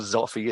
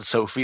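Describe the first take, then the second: First: The name begins with a z sound. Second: The name begins with an s sound. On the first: "or Zoffy" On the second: "not Sophie"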